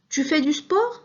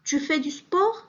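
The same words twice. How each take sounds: No difference in how they are said.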